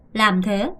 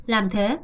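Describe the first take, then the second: No difference in how they are said.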